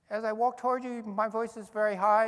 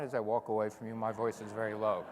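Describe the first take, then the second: First: High pitched voice. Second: Low pitched voice. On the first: Lecturer demoing Doppler to the audience, voice climbing high. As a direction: pitch the voice way up as if approaching. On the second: Lecturer demoing Doppler, the receding voice dropping low. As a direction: drop the voice lower as if moving away. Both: Shown as a demonstration. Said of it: "demonstrate this to you".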